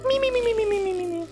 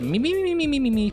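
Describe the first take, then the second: First: It is said in a high-pitched falsetto voice. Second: It is said in a normal, lower pitch. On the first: The speaker calls it right. "supposed to be like a high-pitched me me me me me. I channel my inner falsetto" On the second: The speaker calls it wrong. "That wasn't the right me me me me me though"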